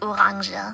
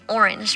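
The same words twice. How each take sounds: First: It is pronounced the German way. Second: It is pronounced the English way. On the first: "We call it orange. ... literally just pronounced it German" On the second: "we don't call an orange orange"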